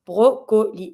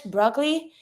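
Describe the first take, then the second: First: "Brocoli" as French bro-ko-lee, both Os full; French "Brocoli" with a clear second O, falling; French, every vowel. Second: "broccoli" as English BROK-lee, second O dropped; "broccoli" with the middle vowel swallowed; English pronunciation. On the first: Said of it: "You pronounce every vowel". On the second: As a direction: say "broccoli" the English way, two syllables, rising. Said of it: "when you say it in English". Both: Shown as a demonstration.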